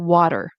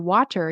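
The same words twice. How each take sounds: First: The middle t is a quick flap. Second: The middle t is a clear, full t. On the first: The speaker calls it right. "you want to say water" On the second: The speaker calls it wrong. "instead of saying like um, butter or water"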